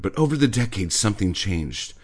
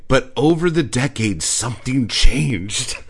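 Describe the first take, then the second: First: Said in the usual way. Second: Loud, slowed dramatic read of the article; dramatic mock reading. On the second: Reading the article's line to mock its drama. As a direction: boom it out like a trailer.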